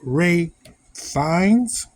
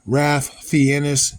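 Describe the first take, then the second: First: The first name sounds like 'Rafe', without an L. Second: The first name sounds like 'Ralf', with an L.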